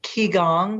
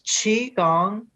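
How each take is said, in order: First: The first syllable does not start with ch. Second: The first syllable starts with a ch sound. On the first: The speaker calls it wrong. "it's not Qigong, which some people say" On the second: The speaker calls it right. "It's Qigong, and that word Q I is also sometimes spelled C H I"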